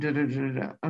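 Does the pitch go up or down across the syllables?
down. The pitch steps down across the syllables.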